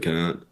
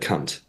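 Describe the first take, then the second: First: The final T is soft and barely released. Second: The final T is hard and clearly released. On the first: The speaker calls it wrong. "Americans, you say it wrong. You don't enunciate the T properly" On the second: The speaker calls it right. "like a proper hard T at the end"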